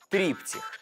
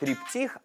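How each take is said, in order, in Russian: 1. Ударение на первом слоге. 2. Ударение на последнем слоге. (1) "а триптих" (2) "правильно говорить не триптих"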